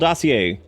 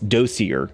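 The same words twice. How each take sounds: First: It is pronounced the French way. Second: It is pronounced the English way. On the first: The speaker calls it wrong. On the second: The speaker calls it right.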